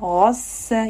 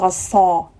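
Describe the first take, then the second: First: The s sound is light and thin. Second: The s sound is heavy and thick. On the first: The speaker calls it right. "السين is a light" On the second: The speaker calls it wrong. "We don't say غصا"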